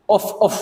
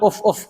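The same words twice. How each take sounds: First: Two short soft puffs of breath, "Uf, uf"; soft blowing puffs. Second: Two quick light puffs, "uf, uf"; short blowing puffs. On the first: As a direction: blow out gently twice, "Uf, uf", like clearing dust. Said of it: "gitu ya". (tiupan pelan dua kali "Uf, uf") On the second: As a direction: puff out the breath twice, "uf, uf", to show the sound. (tiupan ringan dua kali "uf, uf") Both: Shown as a demonstration.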